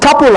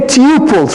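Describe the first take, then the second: First: The first vowel is short, like 'cup'. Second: The first vowel is long, like 'too'. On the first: The speaker calls it right. "it's tuple actually ... like it's a couple" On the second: The speaker calls it wrong. "most people pronounce it really badly. They say tuples"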